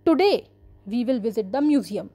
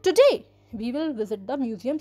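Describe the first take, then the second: First: Said in the usual way. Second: "Today" said with clear emphasis at the start; stress on today. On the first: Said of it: "you can see the word "today," we are giving more emphasis". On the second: Shown as a demonstration. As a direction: lean on "Today" and read the rest plainly. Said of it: "we are giving more emphasis on it".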